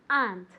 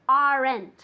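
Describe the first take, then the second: First: The word is said as one syllable. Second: The word is split into two syllables. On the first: The speaker calls it right. "It's just one syllable" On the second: The speaker calls it wrong. "I never, ever, ever want to hear aren't"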